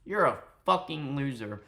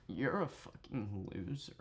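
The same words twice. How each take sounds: First: Said in the usual way. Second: Hushed, put-on seductive murmur; mock seductive voice. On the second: Streamer redoing an insult in his target's voice, mock seductive. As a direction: softly mimic a would-be seducer. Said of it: "the seductive voice".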